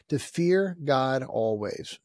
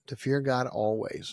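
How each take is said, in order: First: Drawn out, each word weighed; slow emphatic sermon line; slow and deliberate. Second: Said in the usual way. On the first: Real, not acted. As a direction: lay it down slowly. Preacher repeats a point.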